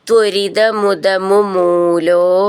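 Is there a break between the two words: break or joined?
joined. The two words are run together without a break.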